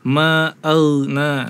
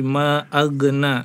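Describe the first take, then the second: First: The gh sound flows smoothly without a stop. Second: The gh sound is a bouncing, stopped release. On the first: The speaker calls it right. "harusnya dibaca ma'auna" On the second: The speaker calls it wrong. "dibacanya qalqalah ya"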